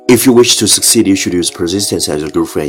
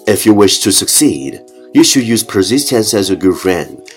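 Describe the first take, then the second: First: It is said very fast in one breath. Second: It is said at a slower, normal pace.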